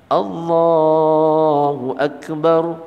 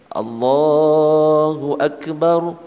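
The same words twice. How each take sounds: Both takes have the same delivery.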